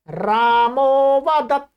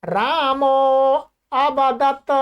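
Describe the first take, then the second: First: रामो वदत slow, with no break; joined, silent अ. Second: रामो, a pause, then अवदत with अ sounded; unjoined words. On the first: Teacher showing the sandhi result, joined with silent अ. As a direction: stretch रामो straight into वदत. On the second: Teacher giving words before sandhi, unjoined. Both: Shown as a demonstration. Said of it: "अ है वो silent हो जाता है".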